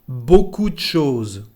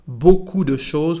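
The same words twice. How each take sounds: First: The vowel in de is dropped. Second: The vowel in de is fully pronounced.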